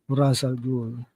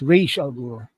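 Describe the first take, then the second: First: The name uses the film's pronunciation. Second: The name uses the animated series pronunciation. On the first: "They did this as Ra's al Ghul, which is better" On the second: "In the Batman, the animated series, it's pronounced as"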